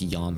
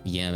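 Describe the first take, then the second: First: The vowel sounds Japanese, an open 'ah'. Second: The vowel sounds English, as in 'can'. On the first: The speaker calls it wrong. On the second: The speaker calls it right.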